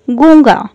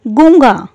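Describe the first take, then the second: No difference in how they are said.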